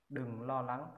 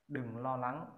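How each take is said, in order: Both takes have the same delivery.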